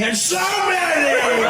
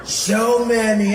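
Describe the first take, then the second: First: Very slow, swooping up high and loud; Donald Trump. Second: Very slow, lower-key first take; drawn-out presidential caricature, held back from the peak; Donald Trump. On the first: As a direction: blare it out in a soaring stretch. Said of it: "It was always high". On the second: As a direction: stretch the words out on a level pitch. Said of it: "it was low". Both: Acted.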